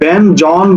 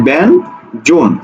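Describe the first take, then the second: First: The second syllable has an open 'aw' vowel. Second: The second syllable has a closer 'o' vowel. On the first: The speaker calls it wrong. "আমরা কিন্তু ব্যান জন বলি না" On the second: The speaker calls it right. "আমরা বলি কি ব্যান জোন"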